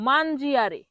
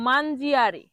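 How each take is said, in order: Both takes have the same delivery.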